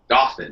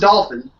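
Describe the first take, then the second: First: The word is said without an L sound. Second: The word is said with an L sound. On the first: The speaker calls it right. "there is no L" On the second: The speaker calls it wrong. "No L. Not"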